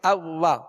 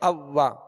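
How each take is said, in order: First: The w is said without rounding the lips. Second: The w is said with clearly rounded lips. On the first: The speaker calls it wrong. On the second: The speaker calls it right.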